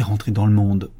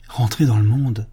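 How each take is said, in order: First: Said in the usual way. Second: Exclaiming. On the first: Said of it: "en fut venue à dire". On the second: A narrator's reading. The abbé cries out in dismay to the nuns, exclaiming. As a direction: throw it out in shocked disbelief. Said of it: "s'écria l'abbé".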